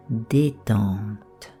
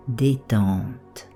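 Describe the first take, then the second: No difference in how they are said.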